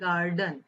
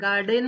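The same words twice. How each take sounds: First: The last syllable has a weak uh vowel. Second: The last syllable has a clear e vowel. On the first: The speaker calls it right. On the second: The speaker calls it wrong.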